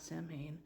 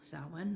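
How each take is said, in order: First: The word begins with a 'sam' sound. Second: The word does not begin with a 'sam' sound. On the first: The speaker calls it wrong. "not Samhain" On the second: The speaker calls it right. "properly pronounce the holiday's name"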